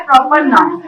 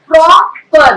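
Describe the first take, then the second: First: Said in the usual way. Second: प्रॉपर broken into "pro" and "per"; syllable by syllable. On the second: Shown as a demonstration. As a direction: say प्रॉपर in two separated beats, pro - per. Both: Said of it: "break कर करके जो ma'am बोल रही हैं".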